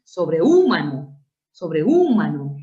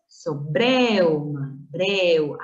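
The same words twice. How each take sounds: First: "sobrehúmano" stressed hard and loud on the ú; exaggerated wrong accent on ú in "sobrehúmano"; wrong stress demo. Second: "sobreuma" slowly, e and u glided together; diphthong demo. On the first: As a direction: punch the ú in "sobrehúmano", broken from the e. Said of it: "No dices". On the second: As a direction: stress the e of "breu", sliding into u. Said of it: "Tú dices". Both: Shown as a demonstration.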